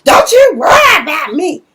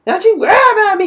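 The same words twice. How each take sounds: First: High, loud snapping comeback; defiant retort. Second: Fast, high, loud rattled-off retort; rapid defiant repeat. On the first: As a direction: fire it back at your sister, loud and high. Nova snaps back in quarrel. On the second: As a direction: spit it out fast and sharp. Nova repeats retort faster. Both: Retold or imitated.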